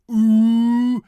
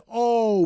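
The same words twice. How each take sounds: First: Oo as in English "boo", loud and high; loud, stretched oo sound; wrong vowel. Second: A long, high, loud O as "oh"; correct Dutch vowel. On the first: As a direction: hold a long oo. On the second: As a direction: round out a full O. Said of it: "but O". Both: Shown as a demonstration.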